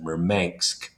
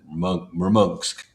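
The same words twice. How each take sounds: First: The name is said with an English pronunciation. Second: The name is said with a Russian pronunciation. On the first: "you would pronounce it Murmansk" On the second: "but Russians pronounce it Murmansk"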